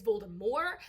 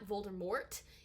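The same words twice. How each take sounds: First: The final T sound is silent. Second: The final T sound is pronounced. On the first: The speaker calls it right. "you do not pronounce the T on the end" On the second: The speaker calls it wrong. "it's not Voldemort"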